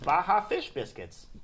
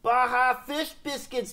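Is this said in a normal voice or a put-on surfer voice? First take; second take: normal; surfer voice. First: It is said in an ordinary speaking voice. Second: It is said in a put-on surfer voice.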